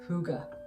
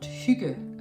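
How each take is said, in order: First: It is said with an anglicized English pronunciation. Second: It is said with the native Danish pronunciation. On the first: This is how a dictionary suggests foreigners say it. The speaker calls it wrong. "the dictionary for suggesting that it's pronounced hygge" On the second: This is how the word is really pronounced. The speaker calls it right. "the word is actually pronounced hygge"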